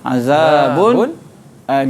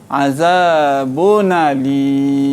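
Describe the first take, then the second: First: A brief silent stop comes before alim. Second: The nun flows straight into alim without break. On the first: "dia baca dengan saktah" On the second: "Dibaca dengan naqal"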